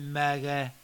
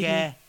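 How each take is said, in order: First: The first vowel sounds like 'ah'. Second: The first vowel sounds like 'eh'. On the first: The speaker calls it right. "but MAGA" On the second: The speaker calls it wrong. "not mega"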